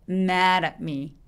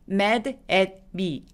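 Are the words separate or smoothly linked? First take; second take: linked; separate. First: The words are linked with a soft flapped d. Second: The words are said separately with a clear d. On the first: The speaker calls it right. "이렇게 발음하기" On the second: The speaker calls it wrong. "아니고"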